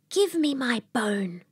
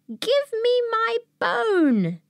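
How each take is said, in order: First: It is said softly. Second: It is said somewhat louder.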